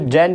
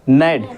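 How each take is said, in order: First: The word starts with a g sound. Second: The word starts with an n sound. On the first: The speaker calls it wrong. "इसको जेंट नहीं पढ़ेंगे" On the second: The speaker calls it right. "क्या पढ़ेंगे नेट, जी हमारा silent होगा"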